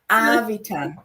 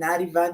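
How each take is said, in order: First: The middle consonant is a v sound. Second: The middle consonant is a t sound. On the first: This is the real name. The speaker calls it right. "I said no, no, Avitan" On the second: Others mispronounced it like a drug name. The speaker calls it wrong. "they used to call my name over the P A Ricky Ativan"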